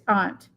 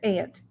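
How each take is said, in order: First: The word uses the New England pronunciation. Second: The word uses the local regional pronunciation. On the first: "In New England, it's aunt" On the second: "Here, it's aunt"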